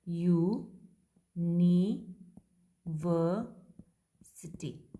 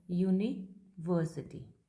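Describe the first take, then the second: First: यूनिवर्सिटी stretched very slowly as यू, नि, वर, सिटी; syllable by syllable. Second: Said in the usual way. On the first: Shown as a demonstration. Teacher showing students the transcription, यूनिवर्सिटी sounded out slowly in separated syllables. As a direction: break यूनिवर्सिटी into drawn-out chunks, pausing after each. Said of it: "transcription करते हैं तो ये क्या बनेगा". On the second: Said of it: "जैसे suppose हम एक word लेते हैं".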